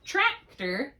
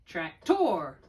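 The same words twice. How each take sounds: First: "tractor" as TRAC-ter, slowly; stress on first syllable. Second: "tractor" as trac-TOR, slowly; stress on second syllable. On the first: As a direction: punch TRAC in "tractor", weak "er" ending. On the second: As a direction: stretch and punch the final "or" of "tractor". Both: Shown as a demonstration. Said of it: "tractor or tractor?".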